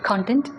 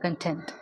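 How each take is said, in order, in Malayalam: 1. ഊന്നൽ ആദ്യ അക്ഷരത്തിലാണ്. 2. ഊന്നൽ രണ്ടാമത്തെ അക്ഷരത്തിലാണ്. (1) "കോണ്ടൻറ്റ് എന്ന് പറയുമ്പോൾ നമ്മൾ ഗിവ് സ്ട്രെസ് ഓൺ കോണ്ടൻറ്റ്" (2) "നമ്മൾ സ്ട്രെസ് കൊടുക്കുന്നത് ടേയ്ക്കകത്താണ്"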